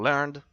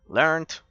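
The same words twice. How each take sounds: First: It is said with a British pronunciation. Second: It is said with an American pronunciation.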